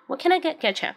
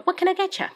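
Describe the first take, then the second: First: Said in the usual way. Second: High bright bartender question. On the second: Shown as a demonstration. Teacher demoing a waitress's greeting, pitched high and bright. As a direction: lift the pitch way up on a cheerful server's question. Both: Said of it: "Yeah, very good".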